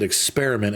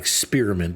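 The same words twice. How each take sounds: First: It is said the ordinary way, without 'spearmint'. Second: It is said so it sounds like 'spearmint'. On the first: The speaker calls it right. "Notice how I said experiment" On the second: The speaker calls it wrong. "not experiment because this is not spearmint gum"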